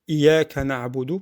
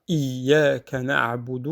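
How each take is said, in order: First: The y sound is short and single. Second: The y sound is doubled and held. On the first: The speaker calls it wrong. "On dit Iyyaka na'budu parce que c'est plus facile" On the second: The speaker calls it right. "il faut faire euh, l'effort de bien prononcer le Ya mushaddada"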